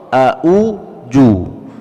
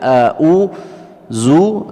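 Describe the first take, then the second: First: The last consonant is a 'j' sound. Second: The last consonant is a buzzing 'z' sound. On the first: "atau a'u ju" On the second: "Jadi tidak a'u zu"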